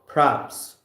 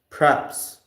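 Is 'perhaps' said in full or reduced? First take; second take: reduced; reduced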